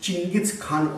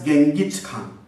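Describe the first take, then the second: First: The name starts with a 'ching' sound. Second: The name starts with a hard 'geng' sound. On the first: This is the original form of the name. "original it is said it is" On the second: This is the English form of the name. "in English he is marked as"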